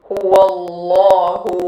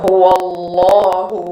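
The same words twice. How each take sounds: The two takes are said the same way.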